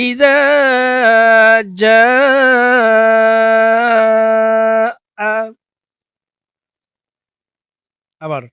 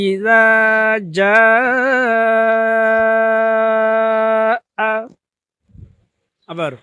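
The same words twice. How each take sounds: No difference in how they are said.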